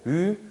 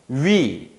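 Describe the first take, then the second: First: The lip shape stays steady during the vowel. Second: The lip shape changes during the vowel. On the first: This is how speakers said it in the past. "이렇게 발음하지 않고 으, 으 이렇게 발음했어요" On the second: This is how speakers say it today. "위, 외 이런 식으로 입술 모양이 바뀌거든요"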